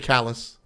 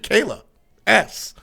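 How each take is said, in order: First: The name is said as one word, callus. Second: The name is said as Kayla plus the letter S. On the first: The speaker calls it right. "I fixed it to Callus" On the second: The speaker calls it wrong. "So I pronounced it Kayla S. But incorrect"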